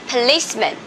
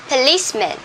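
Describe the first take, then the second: Both takes have the same delivery.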